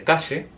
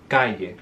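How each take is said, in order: First: It is said in a Rio Platense accent. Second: It is said in a Cordobés accent.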